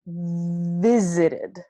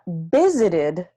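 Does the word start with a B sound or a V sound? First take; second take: V sound; B sound. First: It starts with teeth on lip, a V. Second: It starts with closed lips, like a B. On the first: The speaker calls it right. "my lips are not closed" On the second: The speaker calls it wrong. "This is not visited"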